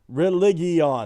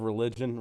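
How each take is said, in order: First: The word is pronounced in an unusual, altered way. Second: The word is pronounced in the ordinary way. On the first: It copies a made-up future pronunciation. "they had this whole thing of like the pronunciation of this new world" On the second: It is the normal present-day pronunciation. "instead of"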